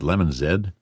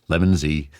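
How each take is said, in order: First: The final letter is said as zed. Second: The final letter is said as zee. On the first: This is the Canadian way to say it. "I'm Canadian. I should pronounce it Lemon Z" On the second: This is a habit the speaker has picked up. "I've fallen into the habit"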